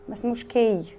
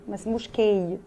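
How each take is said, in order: Both takes have the same delivery.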